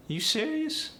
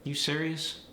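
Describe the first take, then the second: First: AAVE, very high rising pitch on serious; wide-pitched AAVE question, swooping way up. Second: Standard American question, held fairly level. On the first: Teacher showing the dialect's wider pitch range, AAVE. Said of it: "it's more like". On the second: Teacher giving the standard question for comparison, standard American. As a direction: neutral standard American, narrower pitch range. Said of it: "If I were to say". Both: Shown as a demonstration.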